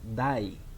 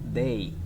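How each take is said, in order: First: The vowel sounds like the one in 'die'. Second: The vowel sounds like the one in 'day'. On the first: The speaker calls it wrong. "It is not die. Never say die. It's very common mistake" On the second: The speaker calls it right. "It is they"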